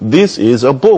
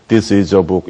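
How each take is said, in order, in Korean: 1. 문장 전체에서 억양이 올라갔다 내려가요. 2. 문장 전체에서 억양이 평평하게 유지돼요. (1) "영어는 this is a book 이렇게 다르거든요" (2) "억양 없이 얘기를 하기 때문에"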